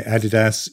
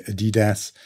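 First: Adidas stressed on the first syllable, AD-i-das; front-stressed Adidas, short i in the middle; British Adidas. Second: Adidas stressed on the middle syllable, a-DEE-das; middle-stressed Adidas with a long ee; the other Adidas. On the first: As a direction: say Adidas as AD-ih-dass, British style. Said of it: "I would say Adidas". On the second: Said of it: "you might say Adidas". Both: Shown as a demonstration.

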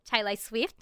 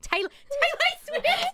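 First: Said in the usual way. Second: Very high, slow chipmunk squeak; helium voice. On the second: Shown as a demonstration. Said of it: "their chipmunk helium voice".

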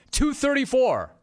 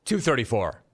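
First: High, excited announcement; excited reveal. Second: Said in the usual way. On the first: Real, not acted. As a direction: call out the figure high and excited. Finds the number on chart.

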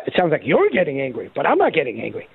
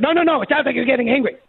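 First: Said in the usual way. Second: Higher, fast, sing-song mockery of the panel; mocking panel voice. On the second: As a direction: toss off the accusation like a smug official. Panel quoted mockingly, repeated.

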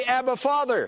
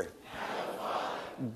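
First: Said in the usual way. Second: A hushed, whispered Abba, Father. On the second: Shown as a demonstration. Pastor leads the congregation repeating it, whispered. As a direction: breathe Abba, Father with no voice at all. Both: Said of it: "Now say".

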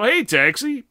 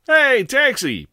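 First: Higher, louder cab call; hailing a taxi. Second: Much higher, louder, slow cab call; hailing a taxi. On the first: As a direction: flag the cab again. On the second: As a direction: flag down the cab, loud. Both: Acted.

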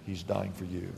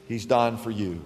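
First: Soft, dropped low repeat of He's dying for you; hushed lower echo of the line before; quiet. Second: Said in the usual way. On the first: Acted. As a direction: let He's dying for you fall to a hush. Repeated line, softer second take.

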